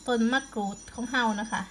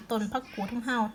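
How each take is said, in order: First: "มะกรูด" said clearly as ma-kroot after the slip; the second take stresses "มะกรูด" with a light ma and a clear kr; corrected word. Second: "ผักกูด" said where "มะกรูด" was meant, pak-kood with a short pak; the first take says "ผักกูด" with a pak sound before the kood; slip of the tongue. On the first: Vlogger fixes her word for viewers, careful corrected pron. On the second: Gardening vlogger mixes up two plant names, misspoken pron. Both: Real, not acted. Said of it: "ออกสำเนียง ออกเสียงก็บ่ถือ".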